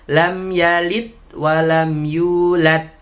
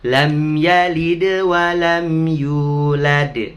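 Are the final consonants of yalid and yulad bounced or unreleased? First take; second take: unreleased; bounced. First: The consonants at 'yalid' and 'yulad' are not bounced. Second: The consonants at 'yalid' and 'yulad' are bounced. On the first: The speaker calls it wrong. "Nggak boleh" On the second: The speaker calls it right. "Semuanya dipantulkan"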